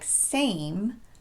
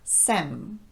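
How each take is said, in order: First: The vowel glides from one sound into another. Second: The vowel is short, with no glide. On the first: The speaker calls it right. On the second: The speaker calls it wrong.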